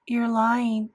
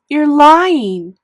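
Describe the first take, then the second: First: Said in the usual way. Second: High, very loud angry scream. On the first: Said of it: "I said". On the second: A narrator's reading. Boy screaming at his sister, furious. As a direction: scream the accusation. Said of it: "I screamed at Via".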